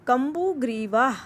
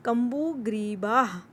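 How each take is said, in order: First: कम्बुग्रीवाह said with a full aa sound and a rising end; teacher confirming कम्बुग्रीवाह; clear aa. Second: कम्बुग्रीवाह with the aa held long; teacher stretching the vowel of कम्बुग्रीवाह; long aa pronunciation. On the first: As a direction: say कम्बुग्रीवाह again with a clean aa. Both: Shown as a demonstration. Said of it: "आ की मात्रा को आ की sound निकालते हैं".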